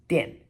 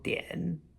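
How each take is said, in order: First: The pitch falls sharply from high. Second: The pitch dips low, then rises. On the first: "fourth tone" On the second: "third tone"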